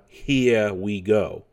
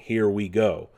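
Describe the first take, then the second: First: It is said with a New York accent. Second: It is said in a plain, neutral American accent. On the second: "If it was just Chris Pratt's regular voice, he would have gone"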